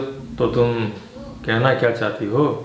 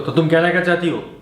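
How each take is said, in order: First: It is said in a tender, romantic tone. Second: It is said in an angry tone. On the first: "आप romantic तरीके से भी बोल सकते हो" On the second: "गुस्से में बोल सकते हो"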